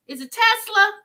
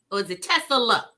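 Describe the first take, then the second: First: "Tesla" said tightly as Tes-la, high; Tesla in two syllables. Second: "Tesla" stretched to Tes-uh-la; Tesla in three syllables. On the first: Host asks viewers about "Tesla", said as two-syllable Tes-la. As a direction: say "Tesla" with no vowel between s and l. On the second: Host offers viewers the other "Tesla", three-syllable Tes-uh-la. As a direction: add an extra uh inside "Tesla": Tes-uh-la. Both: Shown as a demonstration. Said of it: "Uh, two syllables".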